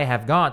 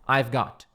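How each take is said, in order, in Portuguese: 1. A palavra have é dita por extenso. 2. A palavra have é contraída para 've. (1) "em vez de falar I have got" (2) "eles falam I've got"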